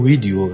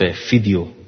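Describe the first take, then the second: First: The word begins with a v sound. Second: The word begins with an f sound. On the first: This is closer to the original word. The speaker calls it right. "حالا من بودم میگم ویدیو" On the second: This is how Arabic speakers say it. The speaker calls it wrong. "برای ویو میگن ف"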